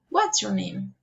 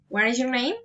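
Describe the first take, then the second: First: The voice falls at the end. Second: The voice rises at the end. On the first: "Following intonation" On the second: "Friendly interest, um, pol politeness, reason intonation"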